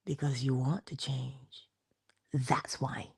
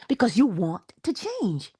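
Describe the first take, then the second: First: Slow, low, soft answer; low and gentle, letting it sink in; hushed. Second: WANT stressed, in a fuller voice; "want" punched and stretched; emphatic. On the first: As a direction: say it quietly and deliberately. First, hushed take of answer. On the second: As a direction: lean hard on "want", then pause before "to change". Repeats answer with emphasis. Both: Real, not acted.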